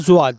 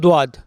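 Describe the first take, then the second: First: The word begins with a z sound. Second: The word begins with a d sound. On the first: This is how our own people say it. "अपन लोग हैं ना वो बोलते हैं ज़ुआत" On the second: This is how the strict Salafi group says it. "वो बोलते हैं दुआत"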